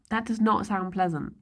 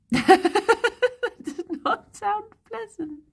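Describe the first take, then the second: First: Said in the usual way. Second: Much higher, slow, squeaking through laughter; laughing, drawn-out disgust; laughing repeat. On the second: Real, not acted. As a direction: repeat it again, cracking up with disgust.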